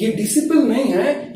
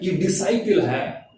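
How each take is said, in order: First: डिसिपल with a short "si", wrong on purpose; wrong pronunciation. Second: डिसाइपल with a long "sai" sound, said slowly; correct pronunciation. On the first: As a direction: say डिसिपल the mistaken way. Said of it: "इसको डिसिपल बोलते हैं". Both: Shown as a demonstration.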